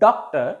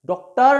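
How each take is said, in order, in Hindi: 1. ज़ोर पहले अक्षर पर है। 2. ज़ोर दूसरे अक्षर पर है।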